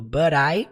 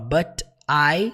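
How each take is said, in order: First: The two words are linked together. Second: The two words are said separately. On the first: The speaker calls it right. "você junta falando but I" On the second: The speaker calls it wrong. "você não fala but I"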